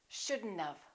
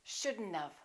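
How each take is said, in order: First: The words are contracted into shouldn't have. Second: The words are contracted into shouldn't have.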